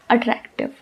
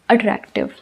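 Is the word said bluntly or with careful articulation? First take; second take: blunt; blunt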